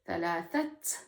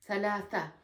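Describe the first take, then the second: First: The word ends with an audible t sound. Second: The word ends openly, with no t sound. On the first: Something is being counted in running speech. "Unless I'm counting something, ... because I'm speaking fast" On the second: The number is read on its own. "I'm not pronouncing the ta marbuta at the end. So I'm just keeping it open"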